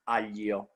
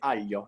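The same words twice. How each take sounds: First: An extra vowel follows the palatal 'gl' sound. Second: No extra vowel follows the palatal 'gl' sound. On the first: This is how speakers believe they pronounce it. "not aglio" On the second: This is how speakers really pronounce it. "They say aglio"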